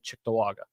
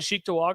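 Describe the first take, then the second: First: The first syllable sounds like chick. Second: The first syllable sounds like cheek. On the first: "people who say Chick" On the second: "I say cheek too"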